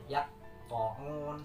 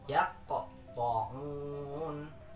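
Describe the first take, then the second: First: The q sound is held without a bounce. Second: The q sound is released with a bounce. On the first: The speaker calls it wrong. "salah karena tidak dibaca memantul" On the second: The speaker calls it right. "Harusnya dibaca"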